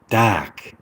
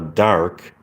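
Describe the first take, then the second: First: It is said in a British accent. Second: It is said in an American accent. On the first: "but the British accent is" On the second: "the American accent is uh"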